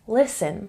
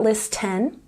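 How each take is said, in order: First: No T sound is heard in the middle. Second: A T sound is heard in the middle. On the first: The speaker calls it right. "the T is silent" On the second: The speaker calls it wrong. "not listen"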